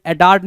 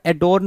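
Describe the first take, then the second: First: एडॉर्न with an open "aar" vowel; wrong pronunciation. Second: एडोर्न with a rounded "o", as "a-dorn"; correct pronunciation. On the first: Teacher showing students the misspelt "a-daarn". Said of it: "एडॉर्न नहीं होता". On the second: Teacher giving students the right "a-dorn". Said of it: "एडोर्न होता है". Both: Shown as a demonstration.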